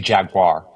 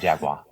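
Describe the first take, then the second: First: The final R sound is pronounced. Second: The final R sound is dropped. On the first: This is how the other person says it. "you say Jaguar?" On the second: This is how people from Boston say it. "we say Jaguar"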